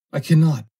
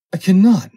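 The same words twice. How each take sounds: First: High, loud pleading cry; scared cry. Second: Very high, much louder shrieking plea; desperate scream. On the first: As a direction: beg him to stop. Foster begs, repeated. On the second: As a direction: scream it in utter panic. Foster begs, repeated louder. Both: Acted.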